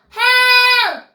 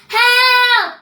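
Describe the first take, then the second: The two takes are said the same way.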